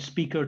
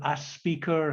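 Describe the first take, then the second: First: It begins directly with the s sound. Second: An added vowel comes before the s sound. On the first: "the word speaker to a speaker" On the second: "happens in northern India"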